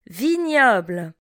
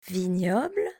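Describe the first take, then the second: First: Vignoble said clearly at full voice; teacher models Vignoble for learners, clearly; model word. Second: Vignoble repeated softer, lower, rising. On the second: Teacher echoes Vignoble quietly for the class. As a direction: softly echo Vignoble. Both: Shown as a demonstration. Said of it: "Répétez après moi".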